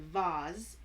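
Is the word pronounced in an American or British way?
British. The word has a British-style pronunciation. "I used to say"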